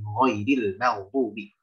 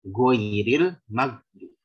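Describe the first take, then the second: First: It starts with a soft throaty gh sound. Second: It starts with a hard g sound. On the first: The speaker calls it right. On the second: The speaker calls it wrong.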